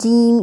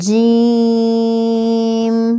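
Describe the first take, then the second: First: The sound is muffled and pressed down. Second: The sound is fully clear and open. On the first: The speaker calls it wrong. "ऐसे दबा दबा लफ्ज नहीं बोलना" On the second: The speaker calls it right. "इसकी आवाज बिल्कुल क्लियर होनी चाहिए"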